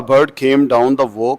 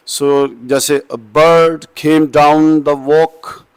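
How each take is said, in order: First: Said in the usual way. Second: Slow teacher demo of the iambic beat in "a bird came down the walk"; iambic recitation. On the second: Shown as a demonstration. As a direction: scan the line out loud, da-DUM da-DUM da-DUM. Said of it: "So इसको आप बोलेंगे कैसे?".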